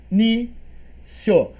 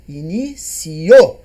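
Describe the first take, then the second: First: Said in the usual way. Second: "Inicio" slow, stress on CI. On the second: Shown as a demonstration. Teacher modelling the stressed syllable, slowly. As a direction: stretch "Inicio" with a rising tune. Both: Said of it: "eu falo inicio ou inicio".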